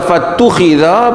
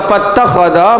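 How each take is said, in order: First: The word is read with 'u-i' vowels: fattukhidha. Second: The word is read with 'a' vowels: fattakhadha. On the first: Someone else did it to the vessel. "Kalau baca fattukhidha bermaksud ada orang tolong buatlah" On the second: The Prophet did it himself or ordered it. "Kalau baca fattakhadha maksudnya Nabi sendirilah yang buat"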